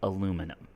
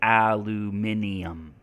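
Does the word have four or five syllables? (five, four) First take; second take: four; five. First: The word is said with four syllables. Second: The word is said with five syllables. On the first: This is the American English form. "in American English, we say aluminum" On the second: This is the British English form. "In British English, they say aluminium"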